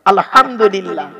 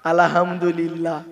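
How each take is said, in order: First: আলহামদুলিল্লাহ slow and loud, the h pushed from the throat; আলহামদুলিল্লাহ, deliberate and careful, throat h; correct pronunciation. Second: আলহামদুলিল্লাহ drawled slowly, low, an extra a slipped in as alahamdulilla; a lazy আলহামদুলিল্লাহ with a vowel added after al; mocking the wrong way. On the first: Shown as a demonstration. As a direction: spell out আলহামদুলিল্লাহ slowly with a throaty h. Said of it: "আলহামদু নয়". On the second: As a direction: imitate the sloppy আলহামদুলিল্লাহ, low and slow. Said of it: "আর আমরা উচ্চারণ করি কি".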